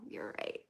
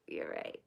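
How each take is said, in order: First: Breathy whisper of agreement; unvoiced whispered aside. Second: Much lower, soft and gruff; low rumbling echo of the phrase; deep voice. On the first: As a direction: whisper it to yourself. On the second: Pretend. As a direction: drop the voice way down for a mock-serious repeat. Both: Repeating the same reply.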